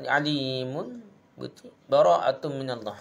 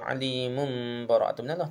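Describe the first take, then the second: First: There is a brief pause after alimun. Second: There is no pause after alimun. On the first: The speaker calls it right. "saktah tu" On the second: The speaker calls it wrong. "Tak boleh baca"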